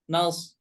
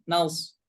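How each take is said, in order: Both takes have the same delivery.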